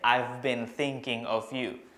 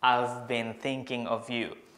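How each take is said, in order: First: I have is contracted into one syllable. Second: The same.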